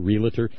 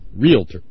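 First: It is said as re-la-tor, three syllables. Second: It is said as real-tor, two syllables. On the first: The speaker calls it wrong. "That would be R-E-L-A-T-O-R" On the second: The speaker calls it right. "Real estate. Realty"

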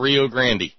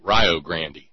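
First: Rio Grande is said with its usual pronunciation. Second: Rio Grande is said with the Ohio pronunciation.

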